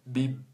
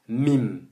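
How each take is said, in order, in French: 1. Il est prononcé avec le nez pincé et bouché. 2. Il est prononcé avec une nette résonance nasale. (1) "lorsque tu as le nez bouché, tu pinces ton nez" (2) "Quand on dit mim, il y a une runna, naturelle"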